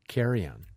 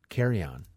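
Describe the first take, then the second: No difference in how they are said.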